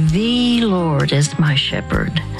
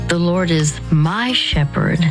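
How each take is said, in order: First: The stress is on "The". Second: The stress is on "my".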